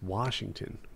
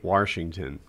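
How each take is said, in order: First: The word has no extra R sound. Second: An extra R sound is inserted in the word. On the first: The speaker calls it right. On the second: The speaker calls it wrong.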